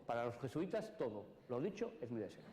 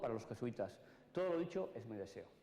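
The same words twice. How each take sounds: First: The pause comes just after 'todo'. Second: The pause comes just before 'todo'.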